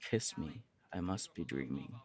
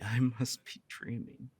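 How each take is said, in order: First: Much softer, a low coaxing murmur; soft suggestive line. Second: Slow, laughing in happy disbelief; dazed laugh. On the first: Shown as a demonstration. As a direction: lure them in quietly. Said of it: "What if I say". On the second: Acted. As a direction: savor it slowly through a laugh. Dazed by the confession.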